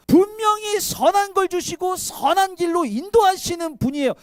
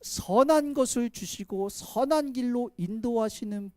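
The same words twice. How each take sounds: First: Higher and louder, hammering 분명히; emphatic shout. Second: Said in the usual way. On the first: Acted. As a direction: preach it out at full force. Repeats the phrase, now shouted.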